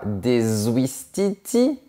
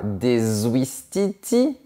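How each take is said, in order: First: A linking consonant joins the words. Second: The same.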